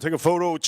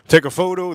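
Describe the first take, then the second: First: Said in the usual way. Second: Louder, insistent repeat; firm nudge to viewers, louder; emphatic. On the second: Real, not acted.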